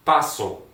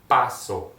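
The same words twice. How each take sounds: First: Said in the usual way. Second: "Paso" slowly, syllables set apart, first one stressed; slower model pronunciation. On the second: Shown as a demonstration. Teacher drilling students on the verb, "Paso" slower and syllable by syllable. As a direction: say "Paso" deliberately for learners to copy. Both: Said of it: "Let's go back, slower".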